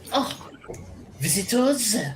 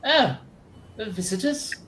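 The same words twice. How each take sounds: First: It is said in a put-on French accent. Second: It is said in the speaker's plain accent. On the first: The speaker calls it right. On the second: The speaker calls it wrong.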